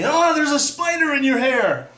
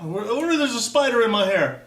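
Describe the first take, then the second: First: High, loud, drawn-out mock warning; kid's alarm. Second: High, loud re-enacted panic; mock panicked yelp; freaking out. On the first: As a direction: holler it like a kid raising a false alarm. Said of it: "some kid telling me". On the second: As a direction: act out a freaked-out little kid's reaction. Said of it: "I was freaking out".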